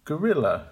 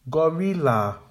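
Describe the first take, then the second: First: "Gorilla" as guh-RIL-uh; correct with schwas. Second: "Gorilla" as GO-RI-LA with full vowels; incorrect full vowels. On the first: Teacher modelling the correct "Gorilla". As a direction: stress the middle of "Gorilla", weak ends. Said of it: "Make the weak syllables quiet". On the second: Teacher modelling the wrong "Gorilla". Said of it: "the incorrect pronunciation". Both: Shown as a demonstration.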